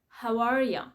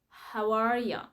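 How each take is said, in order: Both takes have the same delivery.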